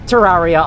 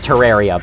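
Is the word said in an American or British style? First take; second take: British; American. First: The word is said in a British style. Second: The word is said in a plain American style. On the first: The speaker calls it wrong. "I like Terraria a lot more. I like pronouncing things the British way" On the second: The speaker calls it right. "it is supposed to be pronounced Terraria"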